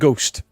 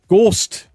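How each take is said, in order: First: Ghost is said with a standard English vowel. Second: Ghost is said with a Welsh Valleys vowel. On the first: "instead of ghost" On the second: "where you said ghost"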